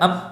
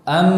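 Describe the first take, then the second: First: The nose is blocked so the m is stifled. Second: Air flows through the nose for a nasal m. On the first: "bila kita tutup hidung kita, ... tidak keluar huruf mim" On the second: "disertai dengan udara yang mengalir dari rongga hidung"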